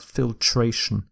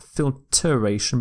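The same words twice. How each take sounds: First: Filtration said fil-tray-shun, no E sound; correct pronunciation. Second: Filtration said as fil-ter-ation, with the E kept; wrong spelling-pronunciation. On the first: Teacher giving students the right form, filtration said as fil-tray-shun. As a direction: clean three-syllable filtration. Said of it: "but filtration". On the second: Teacher showing the wrong form, filtration said with the filter E. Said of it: "So not filtration". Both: Shown as a demonstration.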